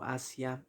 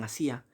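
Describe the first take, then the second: First: "asia" as A-sia, ending in a diphthong; stress on first A. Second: "asía" as a-SÍ-a, three syllables; stress on the í. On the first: Teacher's slip while listing hiatuses, "asia" as A-sia. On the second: Teacher correcting herself to a hiatus, "asía" as a-SÍ-a. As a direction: split the ending of "asía", stressing the í. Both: Shown as a demonstration. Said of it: "perdón, asía".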